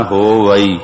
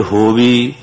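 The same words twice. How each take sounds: First: ਹੋਵਈ said as three syllables, ho-va-ee; correct pronunciation. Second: ਹੋਵੀ clipped to two syllables, ho-vee; wrong pronunciation. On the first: The teacher gives the right form ਹੋਵਈ to the students. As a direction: keep the ਈ of ਹੋਵਈ separate and clear. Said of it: "ਇਹਦਾ ਉਚਾਰਨਾ ਹੋਵਈ". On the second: A teacher showing a wrong reading of ਹੋਵਈ. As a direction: say ਹੋਵੀ short, like a mistake to avoid. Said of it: "ਜੇ ਹੋਵੀ ਕਹਾਂਗੇ". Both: Shown as a demonstration.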